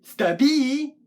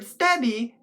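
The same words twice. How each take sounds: First: Stabby wrongly stressed as stuh-BEE; stress on second syllable. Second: Stabby with the first syllable punched; stress on STAB. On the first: Puppet poet showing wrong emphasis, stabby stressed on its last syllable. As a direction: push the weight onto the BY of stabby. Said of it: "that'd be on the other syllable". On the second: Puppet poet teaching word emphasis, stabby stressed on STAB. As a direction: hit STAB in stabby, let the end drop. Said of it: "the emphasis is on stab". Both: Shown as a demonstration.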